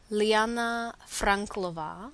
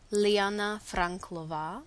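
Both takes have the same delivery.

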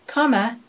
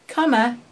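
No difference in how they are said.

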